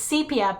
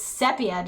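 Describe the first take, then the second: First: The first syllable sounds like the letter C. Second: The first syllable has a short 'seh' vowel. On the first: "put C E E, so it's C and then pia" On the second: "just remove the extra E"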